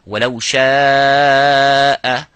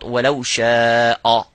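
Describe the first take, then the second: First: The hamza is light, with an empty mouth. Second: The hamza is heavy, with a full mouth. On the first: The speaker calls it right. "have to be مُرَقَّق, which is empty mouth" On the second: The speaker calls it wrong.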